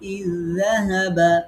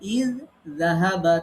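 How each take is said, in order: First: The two sounds merge into one doubled sound. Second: The two identical sounds are pronounced separately. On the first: "এখন আমরা পড়ব" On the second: "ইয যাহাবা ছিল"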